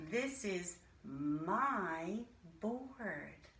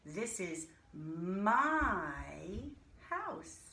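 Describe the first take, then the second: First: "This is my" said slowly, stress on "This"; slow teacher modelling; slow model sentence. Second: "my" drawn out slow and stressed; teaching emphasis on "my". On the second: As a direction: lean on "my" to show it's mine. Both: Shown as a demonstration. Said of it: "That shows possession".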